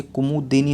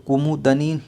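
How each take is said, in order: First: कुमुदिनी with a clear short 'इ' after 'द'; कुमुदिनी spoken as 'कु-मु-दि-नी'; correct spelling said aloud. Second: कुमुदनी said with a plain 'द' and no 'इ' after it; कुमुदनी as the wrong form, 'मुद-नी' run together; wrong spelling said aloud. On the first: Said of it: "होता है". (कुमुदिनी, 'दि' की छोटी 'इ' साफ़ बोलकर) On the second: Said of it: "नहीं होता". (कुमुदनी, 'द' के बाद 'इ' के बिना गलत उच्चारण) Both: Shown as a demonstration.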